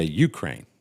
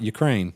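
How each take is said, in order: First: Ukraine with the stress on the first syllable, YOO-kraine. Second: Said in the usual way. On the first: Shown as a demonstration. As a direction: punch the opening syllable of Ukraine. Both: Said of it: "emphasis on the first syllable".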